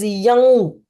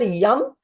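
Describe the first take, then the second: First: The word ends with m blended into ng. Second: The word ends with a plain m sound. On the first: The speaker calls it right. "It is ma sound with little bit of G sound" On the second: The speaker calls it wrong. "neither yum"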